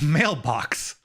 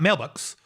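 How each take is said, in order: First: Both syllables carry stress. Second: Only one syllable carries stress. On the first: The speaker calls it right. "there are two stressed syllables in mailbox" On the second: The speaker calls it wrong. "It's not mailbox"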